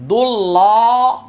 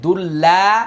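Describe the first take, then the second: First: The L sound is heavy and full. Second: The L sound is light and thin. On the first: "মোটা" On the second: "পাতলা"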